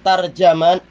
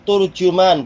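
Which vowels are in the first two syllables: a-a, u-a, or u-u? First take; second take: a-a; u-u. First: Both the first and second syllables have an a vowel. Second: Both the first and second syllables have a u vowel. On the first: "dengan ta dan jim yang di fathah" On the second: "dengan dhammah ta dan jim"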